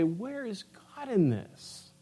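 It sounds tearful and sad.

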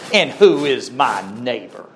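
It is said in a snobbish, self-righteous tone.

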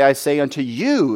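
The stress falls on the word 'you'. The listeners must pay special attention. "If we focus on the you"

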